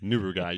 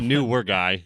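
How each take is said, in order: First: The first two syllables join without a W glide. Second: A W-like glide joins the first two syllables. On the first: The speaker calls it right. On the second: The speaker calls it wrong.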